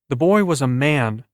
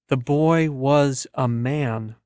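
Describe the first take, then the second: First: It is said at normal speed. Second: It is said slowly, as if intrigued.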